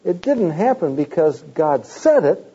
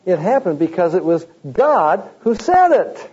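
First: Said stressed in because God said it; emphasis falls on said; wrong stress on said. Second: God stressed, slightly higher, in it was God who said it; emphasis moves to God; right stress on God. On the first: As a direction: lean on the word said. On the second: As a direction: hit the word God. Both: Shown as a demonstration. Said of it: "you put the emphasis upon the wrong thing".

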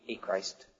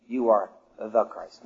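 First: Said in the usual way. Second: "the" stressed in "the Christ", said low and slow. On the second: Shown as a demonstration. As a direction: lean deliberately on the word "the". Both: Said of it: "I emphasize the word "the".

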